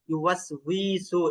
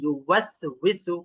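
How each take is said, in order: First: The vowel in the last syllable is drawn out. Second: The word is said quickly without lengthening. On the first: The speaker calls it wrong. "এভাবে বলে কিন্তু টান হয়ে যায়" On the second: The speaker calls it right. "এটা দ্রুত করতে হবে"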